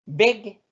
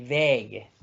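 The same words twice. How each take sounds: First: "Beg" with a brief, cut-off e; short vowel. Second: "beg" with a lengthened e; long vowel. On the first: Teacher setting wall against road, short "Beg". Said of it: "Vocal corta cuando hay dos consonantes". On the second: Teacher setting wall against road, long "beg". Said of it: "vocal larga cuando hay una". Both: Shown as a demonstration.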